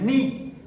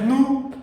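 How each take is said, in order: First: The vowel is a plain spread ee sound. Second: The vowel is a plain rounded oo sound. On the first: "no es ni" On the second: "no es nu"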